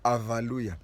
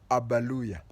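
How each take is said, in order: First: The consonant after the first vowel is v. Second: The consonant after the first vowel is b. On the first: "A V A" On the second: "A B A"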